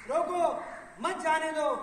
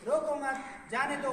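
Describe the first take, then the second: First: रोको alone, a beat, then मत जाने दो together; pause after रोको. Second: रोको मत run together, then जाने दो; pause after मत. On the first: Speaker repeating the sentence to show changed meaning, pause after रोको. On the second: Speaker showing the same words now permit going, pause after मत. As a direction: join मत onto रोको, then let जाने दो follow. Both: Shown as a demonstration. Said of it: "भाव बदल जाते हैं".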